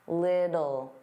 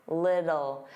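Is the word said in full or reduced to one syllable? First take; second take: full; full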